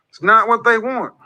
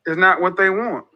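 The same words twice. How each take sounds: First: "they" pushed higher and harder, falling after; stress on they. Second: Not leaned on, falling to the end; stress on not. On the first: Host repeats his point to listeners, hitting "they". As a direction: lift and hit "they" to turn the point on them. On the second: Host repeats his point to listeners, pressing "not". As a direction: press the word "not", let "they want" fall. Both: Real, not acted.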